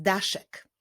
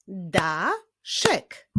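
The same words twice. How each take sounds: First: Said in the usual way. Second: "Daszek" as da, pause, szek; "Daszek" syllable by syllable; split into syllables. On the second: Shown as a demonstration. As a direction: stretch "Daszek" into two separate beats. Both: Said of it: "To również wyraz dwusylabowy".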